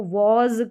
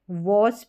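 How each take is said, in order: First: "वॉज" ending in a buzzed z; correct Z ending. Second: "वॉस" ending in voiceless s; wrong reading with S. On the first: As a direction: end "वॉज" on a voiced z. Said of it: "इसको वॉज करके पढ़ते हैं". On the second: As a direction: end "वॉस" on s instead of z. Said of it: "वॉस भी नहीं पढ़ते हैं". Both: Shown as a demonstration.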